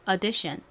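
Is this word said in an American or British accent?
American. American accent, first vowel an open 'uh' sound. "미국식으로도 한번 읽어볼까요? 앞을 어로 바꿔서 해볼게요"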